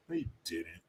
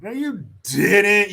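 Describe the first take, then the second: First: Soft, low mutter of doubt; muttered disbelief. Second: Higher, louder, slow drawn-out no you didn't; loud disbelief. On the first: Doubting Kamala's story to himself, softly muttered. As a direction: say it under your breath, unconvinced. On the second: Calling out Kamala's story, loud drawn-out disbelief. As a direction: stretch it out, calling her bluff. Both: Real, not acted.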